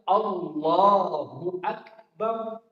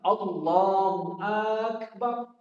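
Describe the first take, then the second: First: No vowel is drawn out in the phrase. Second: The vowel in Akbar is drawn out. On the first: It declares that God is greatest. The speaker calls it right. "Maka harus kita baca" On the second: It asks whether God is great. The speaker calls it wrong. "tidak boleh kita memanjangkan pada bacaan akbarnya"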